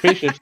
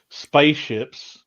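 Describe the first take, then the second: First: It is said with a neutral, non-Southern accent. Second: It is said with a Southern American accent.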